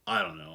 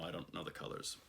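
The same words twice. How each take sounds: First: High, breezy shrug of a line; exasperated I don't know. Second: Voiceless whisper, much softer; whispered aside. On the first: To viewers, shrugging off colour names, high and light. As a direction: toss off I don't know, pitched up. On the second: To herself about colour names, whispered aside. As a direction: drop to a whisper to yourself. Muttered aside after shrug. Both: Real, not acted.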